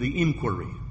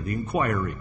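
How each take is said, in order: First: The word is said the modern way. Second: The word is said the traditional way.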